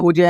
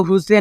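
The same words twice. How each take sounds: First: हुज as "hooj", one beat; correct reading. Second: हुज से as "hoo-se", final e sounded; letter-by-letter misreading. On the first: Teacher giving the right reading, हुज as "hooj". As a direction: say हुज with silent e. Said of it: "आपको क्या पढ़ना है?". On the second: Teacher showing what not to read, हुज से in two beats. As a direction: add a "se" ending, हुज से. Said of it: "हुज से नहीं पढ़ना". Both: Shown as a demonstration.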